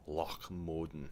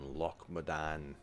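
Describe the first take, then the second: First: The name is said in a more Scottish-sounding way. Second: The name is said in a less Scottish-sounding way.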